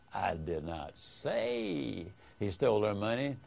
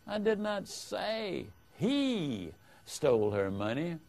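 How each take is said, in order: First: The stress falls on the word 'say'. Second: The stress falls on the word 'he'. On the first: The speaker may have implied it without saying it. "hints that you might have implied it, but you didn't say it" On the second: Someone other than the accused stole it. "implies that someone other than the accused stole the money"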